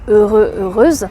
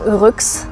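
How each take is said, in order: First: Two separate words are said, masculine then feminine. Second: One blended word mixes both endings together. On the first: "read the two separate words" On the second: "mix them and pronounce it"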